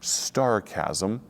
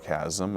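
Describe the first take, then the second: First: The word begins with an ST sound. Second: The word begins with a plain S sound. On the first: The speaker calls it wrong. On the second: The speaker calls it right.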